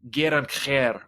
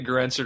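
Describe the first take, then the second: First: The name is said with a harsh throaty sound. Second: The name is said in a plain English way. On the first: "how it sounds in Hungarian, ... you're trying to scrape something off the bottom of your shoe" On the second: "I say Grenzer to rhyme with dispenser"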